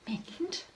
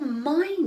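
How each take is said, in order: First: The vowel is short, like in pin. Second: The vowel is long, like the word eye. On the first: The speaker calls it wrong. "when I try the is sound in the word mind, something's wrong" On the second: The speaker calls it right. "it says its name, I ... That works"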